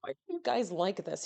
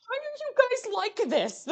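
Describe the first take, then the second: First: Said in the usual way. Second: Very high, strained wail of protest; mock exasperated squeal. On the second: Streamer teased by chat, mock exasperated squeal. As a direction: squeal it in comic despair.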